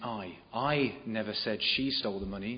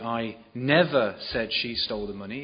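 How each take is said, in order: First: The stress falls on the word I. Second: The stress falls on the word never. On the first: Someone else said she stole the money. "If you emphasize the I" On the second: The speaker definitely did not say it. "it suggests that you definitely weren't the one to say that she stole the money"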